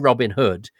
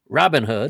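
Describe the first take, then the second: First: The stress falls on the word Hood. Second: The stress falls on the word Robin. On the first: This is the British way of saying it. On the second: This is the American way of saying it. "You stress the the early part of the name"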